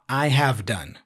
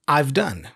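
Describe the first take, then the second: First: Have is said as a full separate word. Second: Have is reduced and joined onto I. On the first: "not I have done"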